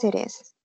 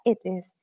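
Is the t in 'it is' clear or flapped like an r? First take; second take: flapped; clear. First: The t sounds like a quick r. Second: The t is pronounced clearly as a t. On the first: "en inglés americano, decimos yes, it is" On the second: "Siempre los británicos tienen eso de que pronuncian exactamente tal cual es la palabra"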